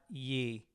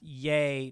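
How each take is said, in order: First: The vowel sounds like the one in 'see'. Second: The vowel sounds like the one in 'day'. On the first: The speaker calls it wrong. "not ye" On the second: The speaker calls it right. "He said it's pronounced yay"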